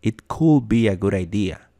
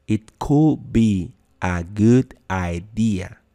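First: Said in the usual way. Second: Very slow, each word clear; slow, deliberate teacher model; slow demo. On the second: Shown as a demonstration. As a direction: spell it out slowly for the class.

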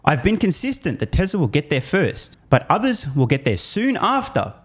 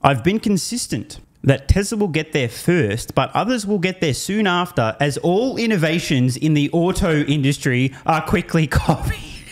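First: Said in the usual way. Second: Slow deliberate reading, laughing at the end; read slowly. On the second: Shown as a demonstration. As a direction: savor each word slowly. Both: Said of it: "let me just read this slowly".

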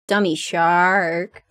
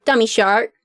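First: Slow, stretched-out "Dummy shark"; drawn-out taunt. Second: Said in the usual way. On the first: Acted. Taunting the shark as a dummy, drawn out.

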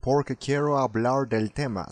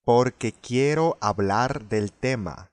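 First: Imitating "hablar" with a rounded English-like R; faulty English-style sound. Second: Slow "hablar" with a clean Spanish tapped R; correct Spanish model. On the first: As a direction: mimic the learner's off, O-coloured ending on "hablar". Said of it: "そのOもおかしいと思います". (「hablar」の語尾が英語っぽい誤った発音の真似) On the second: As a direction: say "hablar" carefully, Spanish R and pure vowels. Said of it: "は正しいですね". (「hablar」を正しいスペイン語のRでゆっくり) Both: Shown as a demonstration.

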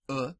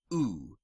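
First: U said as a short "uh", as in put; short clipped vowel for U; short Latin U. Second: U said as a long "oo"; drawn-out "oo" for U; long Latin U. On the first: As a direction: say U as a brief vowel. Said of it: "The short vowels are as follows". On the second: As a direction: say U as a held oo. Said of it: "The long vowels in Latin". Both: Shown as a demonstration.

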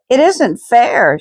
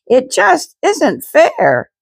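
First: High, slow outburst; a girl bursting out in protest; crying out. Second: Much higher, slow wail of protest; crying out. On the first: Girl bursts out at bedtime Bible story, high protest. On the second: Girl protests to family mid-story, high slow wail. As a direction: cry it out, near tears. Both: A narrator's reading. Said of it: "she cried".

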